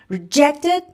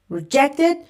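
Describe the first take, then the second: No difference in how they are said.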